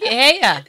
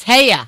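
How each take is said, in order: First: Boston greeting. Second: "Hey ya" with a laughing Boston twang. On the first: Retold or imitated. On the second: Shown as a demonstration. Host shows the guest the Boston greeting, laughing. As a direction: toss it off like a Boston local. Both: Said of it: "That's a Boston thing".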